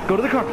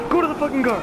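First: Raised, high-pitched urgent order; urgent call. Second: Much higher, more frantic order; insistent urgent yell. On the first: Player ordering teammate to the car, urgent call. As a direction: call it out as a quick command. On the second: Player repeating order to reach the car, insistent yell. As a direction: yell it, punching the start. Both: Real, not acted.

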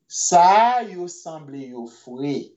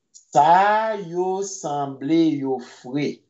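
First: Said in the usual way. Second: "Sa yo sanble yo fre" said slowly with a rise on "fre"; slow it down for learners to copy; slow careful repeat. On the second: Shown as a demonstration. Teacher slowly repeating the phrase for the class.

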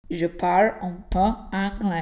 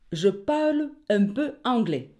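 First: Exaggerated slow French accent on parle; mock French accent. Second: Teacher's plain French model of parle. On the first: [name] clowning a French accent for the teacher. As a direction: ham up a French accent to make the class laugh. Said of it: "forse ho capito come pronunciare bene il francese". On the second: Shown as a demonstration. Teacher repeating the French phrase for students. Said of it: "ripetiamo ancora".

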